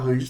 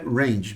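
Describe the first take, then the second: First: The word is pronounced with Portuguese sounds. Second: The word is pronounced with English sounds. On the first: "em português pode falar range tranquilo" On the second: "A pronúncia é range, beleza? Em inglês"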